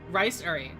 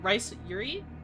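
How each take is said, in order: First: The middle vowel is a plain 'oo' sound. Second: The middle vowel is a 'yoo' sound.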